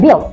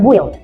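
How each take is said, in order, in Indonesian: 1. Huruf U senyap. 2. Huruf U dibunyikan. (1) "kita mengatakan build" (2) "bukan build"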